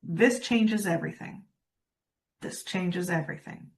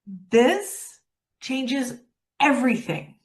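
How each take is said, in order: First: Flat, lifeless, no energy at all; super flat. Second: Slow, deliberate, every word weighted; meant with energy. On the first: Coach demonstrating to audience, deadpan and flat. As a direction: drain every bit of life from it. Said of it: "Super flat". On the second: Coach showing the audience the energized version, slow. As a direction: say it like you mean it. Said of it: "say it like you mean it. Add a pause, add some energy". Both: Shown as a demonstration.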